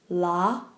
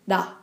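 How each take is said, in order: First: The consonant sounds like an English L. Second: The consonant sounds close to a light D. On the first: The speaker calls it wrong. "or la" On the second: The speaker calls it right. "but da"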